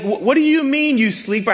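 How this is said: It is said with incredulous, exasperated emphasis.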